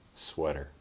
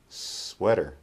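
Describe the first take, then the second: First: The S sound is short and ordinary. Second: The S sound is drawn out and exaggerated. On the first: "the second time we'll make a normal S" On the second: "The first time we'll exaggerate the S"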